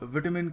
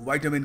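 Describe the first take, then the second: First: It is said with a British pronunciation. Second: It is said with an American pronunciation. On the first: "British थोड़ा विटामिन कहते हैं" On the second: "American विटामिन कहते हैं"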